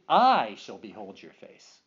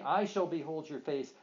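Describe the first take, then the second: First: The word I carries strong emphasis. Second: The word I carries no special emphasis.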